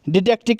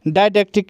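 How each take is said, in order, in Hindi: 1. पहले अक्षर में छोटा 'ih' स्वर है। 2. पहले अक्षर में लंबा 'eye' स्वर है। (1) "ये दोनों ही तरीके से प्रोनाउंस होता है" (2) "ये दोनों ही तरीके से प्रोनाउंस होता है"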